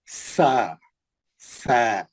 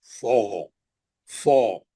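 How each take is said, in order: First: सा lower, with a held flat "a"; spread-mouthed, thin. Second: सो low, held on a rounded "aw"; thick. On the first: Teacher models the thin letter for students, spread-mouthed. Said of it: "मुंह फैला के". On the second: Teacher contrasts the heavy letter for students, thick and low. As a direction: round the mouth and make सो heavy. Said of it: "उसी मुंह से पतला, उसी मुंह से मोटा". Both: Shown as a demonstration.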